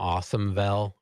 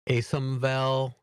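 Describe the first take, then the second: First: The first part sounds like the word 'awesome'. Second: The first part does not sound like 'awesome'. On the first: "I just call them Awesomevel because they are awesome" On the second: "I'm not sure how you pronounce it. If it's Asomvel"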